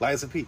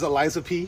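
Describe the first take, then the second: First: The name is said quickly, running together. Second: The name is said at a normal, careful pace.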